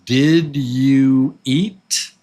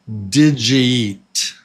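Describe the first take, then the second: First: The words are said separately and clearly. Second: The words run together as one unit. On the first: "you take separate words like this" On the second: "Look, it's all together"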